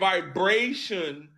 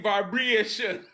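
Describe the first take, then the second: First: It is said in the speaker's usual accent. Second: It is said in a Jamaican accent, A like E. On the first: "instead of saying" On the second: "they say; put an E sound whenever they say an A"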